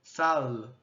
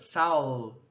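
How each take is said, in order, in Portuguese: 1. O l final é um l velar escuro. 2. O l final é um l velar escuro.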